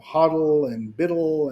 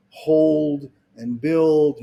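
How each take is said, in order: First: "hodl" said as hoddle, "biddle" for build; slang hodl and biddle. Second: Said in the usual way. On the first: Shown as a demonstration. Speaker naming crypto slang to an audience, hodl and biddle said as spelt. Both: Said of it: "hodl and biddle".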